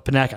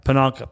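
First: "Panaka" with a flat A and no N before K; alternative pronunciation. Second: "Pananka" with an N before the K; unsure pronunciation. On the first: Host trying out a captain's name, "Panaka" as puh-NACK-uh. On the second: Host trying out a captain's name, "Pananka" as puh-NAHN-kuh. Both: Shown as a demonstration. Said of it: "don't even know how to pronounce".

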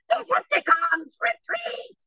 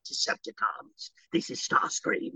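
First: Very high, screechy villain cry, drawn out; Chris Latta Starscream. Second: Low, slow whispered rasp; quiet, menacing villain rasp; Starscream. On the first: Actor showing his audition, screechy high Starscream voice. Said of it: "auditioned as Chris Latta Starscream". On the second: Actor offering producers his new take, hushed raspy villain. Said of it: "in that moment, I went". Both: Shown as a demonstration.

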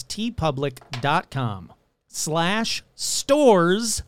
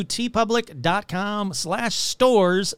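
First: Very slow, spelled-out web address. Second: Said in the usual way. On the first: Shown as a demonstration. Host slowing the merch address for listeners, deliberately slow. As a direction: say "T public dot com slash stores" slowly, piece by piece. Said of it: "Let me slow that down". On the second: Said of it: "I know I say that really fast".

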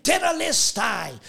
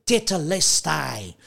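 First: High ringing cry of the word Tetelestai; exclaimed. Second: Said in the usual way. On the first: Retold or imitated. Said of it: "he exclaimed". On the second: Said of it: "in the original Greek is".

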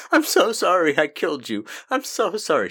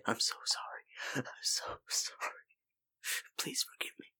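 First: High, loud, over-the-top apology; mock loud confession. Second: Whispered apology. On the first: Cohost mocking an unlikely graveside confession, loud and hammed-up. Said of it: "she's not gonna just sit there and be like". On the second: Acted. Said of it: "She's gonna say".

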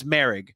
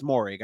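First: "Merrig" said with an AIR vowel, MAIR-ig; suggested pronunciation. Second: "Moehrig" said with an OR vowel, MOR-ig; doubted pronunciation. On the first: Host guessing at the player's name, "Merrig" as MAIR-ig. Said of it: "I think it's something else". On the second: Host doubting how the player's name is said, "Moehrig" as MOR-ig. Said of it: "I don't think I'm pronouncing his name right". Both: Shown as a demonstration.

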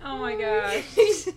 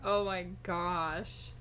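First: Put-on drawn-out valley girl gush. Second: Put-on slow drawn-out valley girl voice. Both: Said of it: "That's what you sound like".

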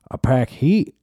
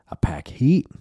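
First: Higher, proud boast; mock Texan woman. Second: Whispered boast; mock whisper. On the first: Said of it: "faction of women that were like". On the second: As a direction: hiss the threat under your breath.

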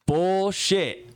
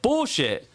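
First: A higher, louder retold "Bullshit"; loud disbelief. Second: "Bullshit" said again, higher and louder; loud disbelief. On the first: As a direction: shout "Bullshit" back in disbelief. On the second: Retold or imitated. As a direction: call out "Bullshit" a second time in disbelief.

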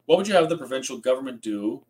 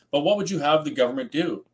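First: "have" stressed, rising question tune. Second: "what" hit high with a falling end; stress on what. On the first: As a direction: push "have" and lift the end. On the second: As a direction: lean on "what" and let it drop. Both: Real, not acted.

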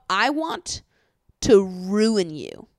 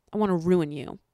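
First: RUIN stretched slow and loud; drawn-out emphasis. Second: Said in the usual way. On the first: Retold or imitated. Podcaster quoting his nasty line, slow heavy stress on "ruin". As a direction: hit "ruin" hard and drag it out. Incredulous repeat of a quoted line.

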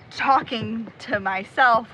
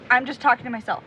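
First: "talking to myself" slowed right down, leaning on each word; drawn out slowly so "talking to myself" sounds like a loaded phrase; meaningful emphasis. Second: Said in the usual way. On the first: Shown as a demonstration. Explaining to a stranger she isn't crazy, slow pointed emphasis on "talking to myself". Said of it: "Not, like". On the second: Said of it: "Not, like, talking to myself".

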